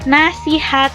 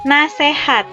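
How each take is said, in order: First: The middle syllable has the vowel i. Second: The middle syllable has the vowel e. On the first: This is the standard form. "Contoh dari kosakata baku" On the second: This is the informal, nonstandard form.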